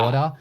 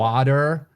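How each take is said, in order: First: The R is glided over softly. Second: The R is pronounced hard, American-style.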